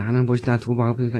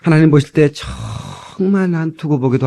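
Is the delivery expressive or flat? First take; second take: flat; expressive. First: It is read flatly, like reciting a textbook. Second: It is said with feeling and lively expression. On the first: The speaker calls it wrong. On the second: The speaker calls it right.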